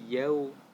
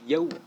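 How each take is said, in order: First: The w sound is said soft. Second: The w sound is said hard. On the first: The speaker calls it right. "lembut ya" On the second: The speaker calls it wrong. "jangan yau, yau, nah, salah itu"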